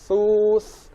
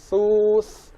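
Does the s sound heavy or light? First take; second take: light; light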